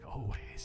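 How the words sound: It is said in a put-on, sultry voice. "with a poise voice, like always? No, that's more sexual"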